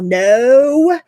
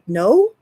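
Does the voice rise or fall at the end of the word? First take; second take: fall; rise. First: The voice falls at the end like a statement. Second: The voice rises at the end like a question. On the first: The speaker refuses firmly and without asking permission. The speaker calls it right. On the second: The speaker is unsure and seeks permission to refuse. The speaker calls it wrong.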